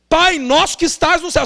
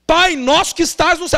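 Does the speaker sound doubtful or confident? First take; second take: confident; confident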